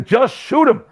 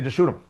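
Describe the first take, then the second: First: Mock Bond villain, much higher, blurting "Just shoot him"; exasperated villain. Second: Said in the usual way. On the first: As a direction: toss it off like an impatient bad guy. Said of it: "And the other guy". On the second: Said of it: "There is an idea".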